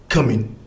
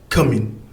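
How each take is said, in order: Both takes have the same delivery.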